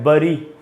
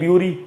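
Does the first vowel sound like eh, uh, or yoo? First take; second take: uh; yoo. First: The first vowel sounds like uh. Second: The first vowel sounds like yoo. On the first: "दोनों ही उच्चारण गलत है" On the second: "दोनों ही उच्चारण गलत है"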